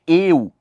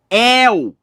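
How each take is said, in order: First: The diphthong starts with a closed vowel. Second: The diphthong starts with an open vowel. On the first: "não é" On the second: "é aberto"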